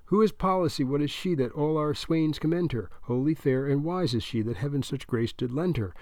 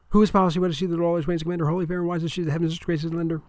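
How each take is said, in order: First: Measured verse recital at normal speed; dutiful recitation of a memorized poem; group recitation. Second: Rapid-fire recitation, pitch raised; high-speed debater's patter; talking fast. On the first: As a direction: recite the poem like a drilled squad. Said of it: "They speak in one voice". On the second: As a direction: rattle off the verse at double speed without a breath. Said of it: "you've got to talk fast". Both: A narrator's reading.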